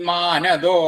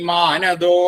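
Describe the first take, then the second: No difference in how they are said.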